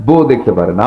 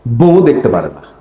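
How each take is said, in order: First: Chuckling while repeating for the crowd; laughing repeat. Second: Said in the usual way. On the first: Shown as a demonstration. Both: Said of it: "কি কথা বলছেন?".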